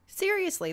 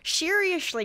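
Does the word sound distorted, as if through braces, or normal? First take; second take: normal; distorted. First: The word is spoken clearly in a normal voice. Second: The word is spoken in a distorted, braces-impaired voice. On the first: "I had to take them out to record this" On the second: "or I'd be like"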